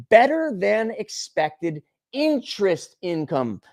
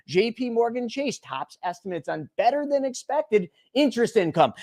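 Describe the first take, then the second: First: Slow, sneering repeat of the headline; sarcastic repeat. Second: Said in the usual way. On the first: Shown as a demonstration. Mocking the headline back to the viewers, slow and sarcastic. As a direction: drag it out with contempt. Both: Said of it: "You don't freaking say".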